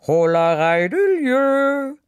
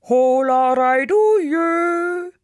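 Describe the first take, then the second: First: Sung, high, loud, drawn-out yodel; sung, yodel it out across the mountains; sung, yodelled call. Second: Sung, higher, longer-held echoing yodel; sung, answer as the mountain, very drawn out; sung, yodelled echo answer. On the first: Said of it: "Sie riefen". (sung, laut gejodelter Ruf) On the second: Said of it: "der Berg antwortete". (sung, gejodeltes Echo, lang gezogen) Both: A narrator's reading.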